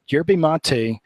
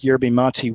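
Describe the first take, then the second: First: Yerba mate said slowly as "YER-bee MAH-tee"; showing how he says yerba mate, slow and careful; own pronunciation. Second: Said in the usual way. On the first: Shown as a demonstration. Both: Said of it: "That's what, how I pronounce it".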